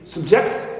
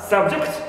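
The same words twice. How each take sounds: First: The stress is on the second syllable. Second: The stress is on the first syllable. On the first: It is used as a verb. "the second syllable in the second word, which is subject, here the word becomes verb" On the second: It is used as a noun. "in the noun uh, subject, the first syllable is stressed"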